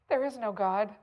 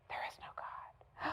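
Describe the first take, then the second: First: It is said a little louder. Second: It is said in a quiet whisper.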